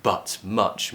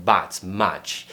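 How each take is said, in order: First: "but", "much" with a short uh; uh vowel. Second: "but", "much" with an open a, like "bat", "match"; mistaken vowel. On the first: Teacher gives the correct model, "but, much" with uh. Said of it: "the uh sound in words like". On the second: Teacher imitates learners' mistake, "but, much" with a vowel. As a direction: swap the uh in "but, much" for a flatter a. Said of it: "Maybe you're always saying". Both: Shown as a demonstration.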